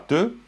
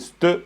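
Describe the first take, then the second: First: The syllable starts directly with t. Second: An s sound is heard before the t. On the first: The prefixed letter goes unpronounced. "c'est pas te" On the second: Every written letter is pronounced, as in Ladakh. "c'est ste. Ils vont prononcer aussi les lettres"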